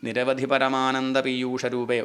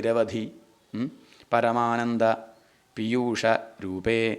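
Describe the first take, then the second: First: The words run together without breaks. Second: The words are split apart with breaks. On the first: The speaker calls it right. "ഒരുമിച്ച് തന്നെയാണ് വായിക്കേണ്ടത്" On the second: The speaker calls it wrong. "അങ്ങനെ വിട്ടുവിട്ട് വായിക്കാൻ പാടില്ല"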